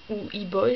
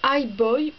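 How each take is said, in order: First: Put-on "E-Boy" with the E said as French "i"; French-style title. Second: Put-on "I Boy" with the I said like English "eye"; English-style title. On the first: Unsure YouTuber trying the title "E-Boy" the French way. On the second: Unsure YouTuber trying the title "I Boy" the English way. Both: Shown as a demonstration. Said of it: "je sais pas comment on prononce".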